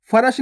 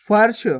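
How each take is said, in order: First: फरश in two syllables, "fa-rash"; wrong full R. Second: फर्श as one syllable, "farsh"; no vowel between r and sh in फर्श; half R. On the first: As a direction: sound a whole "ra" inside फरश. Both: Shown as a demonstration. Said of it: "फरश नहीं".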